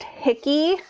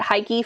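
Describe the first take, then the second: First: The first syllable rhymes with 'sick'. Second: The first syllable rhymes with 'like'. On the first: The speaker calls it right. "this is pronounced hickey" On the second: The speaker calls it wrong. "I was pronouncing it wrong"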